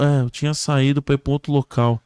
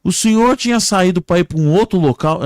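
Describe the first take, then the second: First: Matter-of-fact echo of the question; victim answering. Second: High, loud joke-character question; rescuer questioning. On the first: Crash victim answering the rescuer, plainly echoing. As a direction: repeat it back, calmer than a shout. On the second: Man questioning a crash victim, loud and high. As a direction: call the question out insistently. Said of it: "o homem chegou pra ele e falou". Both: Acted.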